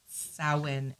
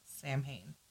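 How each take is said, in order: First: The word is said with its Gaelic pronunciation. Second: The word is read literally, letter by letter. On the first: The speaker calls it right. "it is pronounced Samhain" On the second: The speaker calls it wrong. "and not Samhain, but it does look like Samhain"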